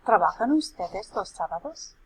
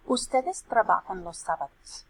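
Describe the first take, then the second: First: "Trabajan ustedes los sábados" as a question, rising on "sábados"; questioning intonation. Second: "Ustedes trabajan los sábados" stated, falling at the end; declarative statement. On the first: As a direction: ask it with a lift at the end of "sábados". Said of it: "make it into a question by flipping". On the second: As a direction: state it clearly, dropping on "sábados". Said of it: "We're gonna make it into a question". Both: Shown as a demonstration.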